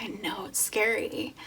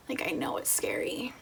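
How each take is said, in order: First: Said in the usual way. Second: Hushed and tender, almost breathless; soft reassuring whisper. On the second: Retold or imitated. Husband quietly reassuring his frightened pregnant wife, soft whisper. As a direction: whisper it gently, like comforting someone scared. Husband comforting her, quoted.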